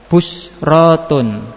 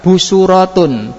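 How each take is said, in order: First: No vowel follows the second consonant. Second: An u vowel follows the second consonant. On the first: "Yang ketiga tetap sukun" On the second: "pertama harokat idba"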